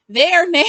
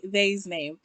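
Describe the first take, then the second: First: Their said clearly as THAIR, louder; correcting herself to Their; Their, stressed and fixed; corrected to their. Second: They's said as one slipped word, THAY-z; saying they's instead of their; they's mumbled as a mistake; wrong word they's. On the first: Shown as a demonstration. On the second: Real, not acted. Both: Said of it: "Why do I keep saying they's?".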